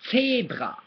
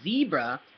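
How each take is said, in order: First: The word begins with a sharp ts sound. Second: The word begins with a buzzing z sound. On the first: The speaker calls it right. "that's what a Z sounds like in German" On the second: The speaker calls it wrong. "instead of saying zebra"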